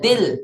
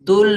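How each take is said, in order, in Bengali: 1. এই উচ্চারণাংশটি 'i' স্বরধ্বনি দিয়ে বলা হয়। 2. এই উচ্চারণাংশটি 'u' স্বরধ্বনি দিয়ে বলা হয়। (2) "তুল নয়"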